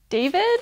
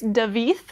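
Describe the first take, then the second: First: The name ends with a plain 'd' sound. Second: The name ends with a soft 'th' sound. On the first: The speaker calls it wrong. "Is that how you say it?" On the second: The speaker calls it right. "Oh no, I'm sorry, it's Davith. Spelled like David"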